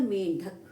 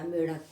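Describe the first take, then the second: First: मेंढक with a nasal before the ढ; मेंढक said with a clear ण्ढ cluster; correct pronunciation. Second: मेढक said without the nasal, wrong form; मेढक with a plain ढ and no न्; wrong pronunciation. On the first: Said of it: "क्या शब्द होता है?". (मेंढक का सही उच्चारण, ढ से पहले अनुनासिक) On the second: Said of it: "मेढक कोई शब्द नहीं होता". (मेढक का गलत उच्चारण, बिना अनुनासिक के) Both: Shown as a demonstration.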